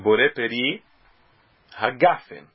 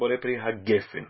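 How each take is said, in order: First: The word ends with 'gafen', an 'a' vowel. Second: The word ends with 'gefen', an 'e' vowel. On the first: This is the pausal form at the end of the phrase. "o segol é transformado em kamatz" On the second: This form follows a Kabbalistic tradition over the grammar rule. "ha-gefen seja dito com o segol"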